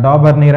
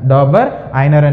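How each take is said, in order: First: The name ends with a 'neer' sound. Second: The name ends with an 'eye-ner' sound. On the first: "డాబర్నీర్ అని కూడా pronounce చేస్తారు" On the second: "డాబర్ ఐనర్ అనేటువంటిదిగా తీసుకుంటాం"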